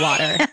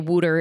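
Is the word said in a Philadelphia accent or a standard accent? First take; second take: standard; Philadelphia. First: It is said with a standard accent. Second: It is said with a Philadelphia accent.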